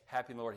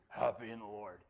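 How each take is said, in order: First: The voice is steady and smooth. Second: The voice is shaky and rough.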